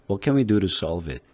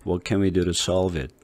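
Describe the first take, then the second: First: "What can we do to solve it?" run together, to softened to ru; smooth linked reading. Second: Each word said separately and heavily; slow choppy English with full Korean vowels; Korean-style reading. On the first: Teacher showing the right flowing link. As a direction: roll through quickly in one breath. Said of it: "이렇게 후루루 넘어갔죠". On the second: Teacher showing how not to read it, word by word. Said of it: "이렇게 하지 않고". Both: Shown as a demonstration.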